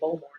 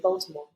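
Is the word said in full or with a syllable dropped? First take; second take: syllable dropped; full. First: One syllable of the word is dropped. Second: All syllables of the word are pronounced. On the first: This is how locals say it. "they say Baltimore when you're in rural" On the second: This is not how locals say it. "they don't say Baltimore"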